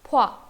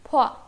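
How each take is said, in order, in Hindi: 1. दोनों स्वर मिलकर एक अक्षर बन जाते हैं। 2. दोनों स्वर मिलकर एक अक्षर बन जाते हैं।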